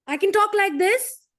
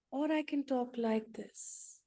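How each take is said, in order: First: Raised, loud and high-pitched; loud forceful tone. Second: Soft gentle tone. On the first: Speaker demonstrating tone to the group, loud and high. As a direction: blast it out high and loud to show harsh tone. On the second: Speaker demonstrating tone to the group, soft and gentle. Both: Shown as a demonstration. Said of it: "The tone".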